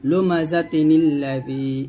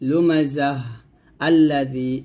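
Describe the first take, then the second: First: It joins both words with a linking n sound. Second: It stops after the first word, with a pause. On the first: "যদি আপনি ওয়াকফ না ধরেন, মিল করে পড়েন" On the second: "এরকম পড়বো, আলিফের উপর জবর দিয়ে পড়তে হবে।"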